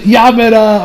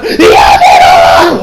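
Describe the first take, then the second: First: Said in the usual way. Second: Drawn-out yelled name; mock scream. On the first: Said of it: "Or she says". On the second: Retelling the anime scene, a drawn-out yelled name. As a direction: stretch the name into a big shout. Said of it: "she screams out".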